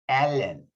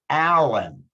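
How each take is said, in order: First: The L is light, tongue back kept low. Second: The L is dark, tongue back raised high. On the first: The speaker calls it wrong. "the light L" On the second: The speaker calls it right. "practice the dark L in words"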